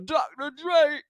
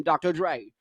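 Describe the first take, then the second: First: High, put-on rapper voice. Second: Said in the usual way. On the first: Host doing a rapper impression, pitched high.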